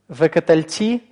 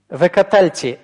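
First: The stress falls on the last syllable. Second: The stress falls on the second-to-last syllable. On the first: The prefix is the consecutive 'and'. "Векатальти – это соотносительный союз вав" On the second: The prefix is the ordinary joining 'and'. "Векатальти – это обычный соединительный союз вав"

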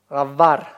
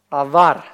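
First: The middle consonant is a fricative v sound. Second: The middle consonant is a fricative v sound.

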